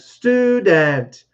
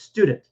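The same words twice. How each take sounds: First: The word is said slowly and carefully. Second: The word is said quickly and smoothly. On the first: The speaker calls it wrong. "if I'm trying to do this really slowly" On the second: The speaker calls it right. "it's just fast"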